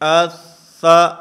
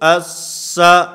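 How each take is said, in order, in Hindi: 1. व्यंजन कोमल ढंग से, बिना ज़ोर के बोला जाता है। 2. व्यंजन कठोर ढंग से, ज़ोर के साथ बोला जाता है।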